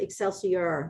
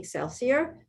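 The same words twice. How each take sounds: First: The word ends with an 'ee-or' sound. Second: The word ends with an 'ee-a' sound. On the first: The speaker calls it right. "It's actually Excelsior" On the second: The speaker calls it wrong. "I didn't say it right up front"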